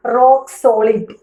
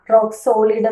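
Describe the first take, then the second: First: റോക്ക് സോളിഡ് said a bit slowly with സോളിഡ് stressed; stress on solid. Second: Said in the usual way. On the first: Shown as a demonstration. Teacher models റോക്ക് സോളിഡ് with stress on സോളിഡ്. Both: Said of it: "സോളിഡിന്റെ ഭാഗത്താണ് stress".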